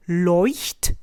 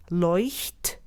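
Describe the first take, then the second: First: "Leuchtturm" repeated with throaty ch and R; German Leuchtturm. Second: "Leuchtturm" with throaty ch and back-of-throat R; German Leuchtturm. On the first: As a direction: repeat it for the class to follow. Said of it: "Let's try it again together". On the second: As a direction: model the German word cleanly. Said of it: "made in the back of your throat". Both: Shown as a demonstration.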